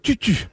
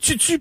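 First: The t is plain, with no hiss after it. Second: The t is followed by a ts hiss. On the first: The speaker calls it wrong. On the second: The speaker calls it right. "On dit"

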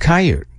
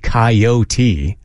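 First: The word is said in a shorter, clipped form. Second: The word is said in a fuller, longer form.

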